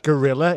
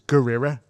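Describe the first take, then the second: First: It is said in a plain English accent. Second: It is said in a Japanese accent.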